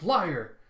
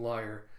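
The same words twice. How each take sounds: First: Higher, louder one-word accusation; accusing exclamation. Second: Said in the usual way. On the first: Retold or imitated. Someone calling Zoro a liar, accusing shout. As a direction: throw it out as a loud charge.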